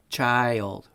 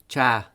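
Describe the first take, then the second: First: It has two parts, the second falling. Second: It has one part, with the ending dropped. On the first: The speaker calls it right. "there are two sounds to each of these words" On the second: The speaker calls it wrong. "don't say"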